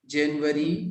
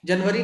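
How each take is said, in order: First: जनवरी with an "e" in the first syllable, "JEN-wari"; teacher's clear "JEN-wari" for जनवरी; correct जनवरी. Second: जनवरी said the wrong way, first vowel a short "uh", "JUN-wari"; quick mock-wrong जनवरी, "jun-vari"; mispronounced जनवरी. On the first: Shown as a demonstration. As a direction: model जनवरी carefully as "jen-wa-ree", lifting at the end. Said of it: "एक मरतबा और सब लोग सुन लीजिए". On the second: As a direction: imitate the student's wrong जनवरी with "jun" at the start. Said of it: "जनवरी नहीं पढ़ना है".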